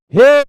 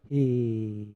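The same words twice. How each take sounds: First: It is said loudly with high energy. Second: It is said quietly with low energy. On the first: "When it goes up, we go like" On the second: "As soon as my hand goes down, we get this like"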